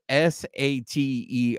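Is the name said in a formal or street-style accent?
formal. The name is said in a careful, formal accent. The speaker calls it wrong.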